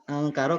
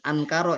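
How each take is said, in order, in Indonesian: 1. Bunyi n menyatu menjadi bunyi ng sengau. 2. Bunyi n diucapkan sebagai n yang jelas. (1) "nah itu angkara karena bukan ankara ya" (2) "bukan ankara"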